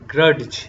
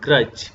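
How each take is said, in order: First: A separate d sound is heard. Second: No separate d sound is heard. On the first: The speaker calls it wrong. "नॉट" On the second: The speaker calls it right. "आप डी को नहीं पढ़ेंगे"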